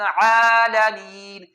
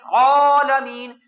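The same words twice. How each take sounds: First: The opening ain sound is light and thin. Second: The opening ain sound is heavy and thick. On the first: The speaker calls it right. "बल्कि बारीक पढ़ना" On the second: The speaker calls it wrong. "आइन को मोटा पढ़ना ठीक नहीं है"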